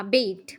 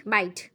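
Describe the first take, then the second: First: "bite" said as bet, short vowel; "bite" stumbled out rhyming with bet; first wrong try at "bite"; mispronounced bite. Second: "bite" said with a clear long i, like bight; fixing "bite" to rhyme with kite; "bite" finally said right; corrected bite. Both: Shown as a demonstration. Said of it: "Oh, whatever".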